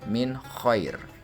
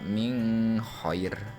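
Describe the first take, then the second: First: The n sound is pronounced clearly and distinctly. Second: The n sound is blurred into the next sound. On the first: The speaker calls it right. "harus dibaca secara jelas" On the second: The speaker calls it wrong. "Tidak boleh dibaca min khair"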